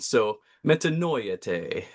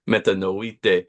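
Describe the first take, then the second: First: The middle vowels sound like 'oy' and 'eh'. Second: The middle vowels sound like a plain 'ee'. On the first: "pronounce them all the way that they're written" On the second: "instead of pronouncing it all metanoite"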